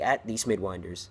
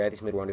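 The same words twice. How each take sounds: First: It is said slowly. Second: It is said at normal speed.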